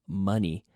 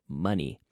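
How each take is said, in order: Both takes have the same delivery.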